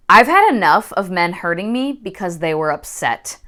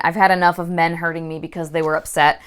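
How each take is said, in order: First: Understated, firm and measured; hard voice. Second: Said in the usual way. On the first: A narrator's reading. Nari standing up to her husband, hard voice. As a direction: draw the line firmly, without raising the voice. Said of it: "Her voice was hard".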